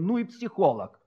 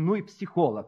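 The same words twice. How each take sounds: First: It is said with an admiring tone. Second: It is said with an envious tone. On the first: The speaker praises the other's skill. "другие с восхищением" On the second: The speaker resents the other's skill. "одни говорили с какой-то завистью"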